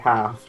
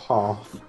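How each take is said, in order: First: It is said with a non-British accent. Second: It is said with a British accent. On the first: "I say half" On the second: "not half"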